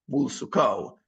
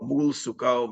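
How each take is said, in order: First: The word mul is said without stress. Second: The word mul is said with stress. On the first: "unless you don't want to stress the word mul" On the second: "even if you do stress mul"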